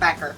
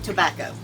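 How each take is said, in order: First: The first syllable is dropped and it ends in -er. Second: All three syllables are said in full.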